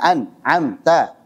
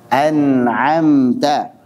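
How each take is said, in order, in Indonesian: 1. Bunyinya berhenti mendadak setelah suku kata pertama. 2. Kata ini mengalir lancar tanpa terputus. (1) "Jangan diputus aliran suaranya" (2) "Ini baca dengan jelas"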